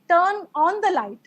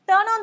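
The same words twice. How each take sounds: First: The words are said separately. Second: The words are linked together. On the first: The speaker calls it wrong. "You can't say turn on the light" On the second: The speaker calls it right. "You will be saying turn on the light"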